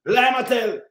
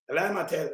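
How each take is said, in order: First: Said in the usual way. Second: Quieter repeat. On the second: Real, not acted. To himself, muttering the accusation again low. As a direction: lower and softer, under the breath. Scoffing at the politician's claim.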